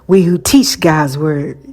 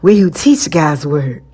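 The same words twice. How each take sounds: First: It is said in a plain, ordinary voice. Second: It is said in a sultry, sexy voice.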